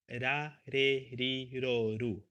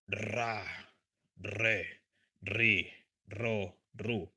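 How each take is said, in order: First: The R is a soft, light single tap. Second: The R is a hard, strong rolled trill. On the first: "soft R" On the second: "And hard, strong one"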